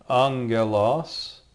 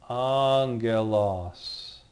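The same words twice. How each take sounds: First: Angelos said slowly as "AHN-geh-lahs", rising at the end; slow angelos with "ng" and hard g, left open; sounded-out Greek word. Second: Angelos stretched very slowly as "AAHN-geh-lahs", falling; very slow Angelos with long first vowel and hard g; drawn-out Greek word. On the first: Teacher first gives the Greek word. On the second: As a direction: Angelos drawn right out, settling at the end. Teacher reads the spelled word back. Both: Shown as a demonstration.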